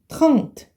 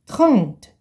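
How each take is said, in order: No difference in how they are said.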